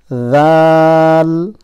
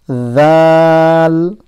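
First: The first sound is a voiced th. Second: The same.

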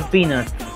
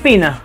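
First: The word sounds like 'peanuts'. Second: The word sounds like 'penis'. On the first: It asks for nuts. The speaker calls it right. "Pero no, se pronuncia peanuts" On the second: It asks for something embarrassing instead of nuts. The speaker calls it wrong. "Yo le estaba pidiendo ella pene"

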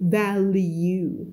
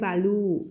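First: The second syllable has a clear 'you' sound. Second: The second syllable lacks the 'you' sound. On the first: The speaker calls it right. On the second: The speaker calls it wrong.

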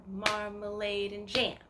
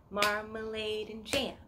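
The two takes are said the same way.

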